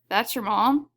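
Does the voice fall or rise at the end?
fall. The voice falls at the end. It is a plain statement. "If you said"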